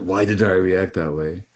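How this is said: It is asked in a harsh, judging tone.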